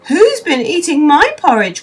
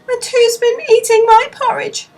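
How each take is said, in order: First: It is cried out in Mother Bear's voice. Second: It is said sadly in Baby Bear's voice.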